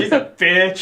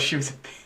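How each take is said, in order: First: It is said louder. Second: It is said at normal, softer volume.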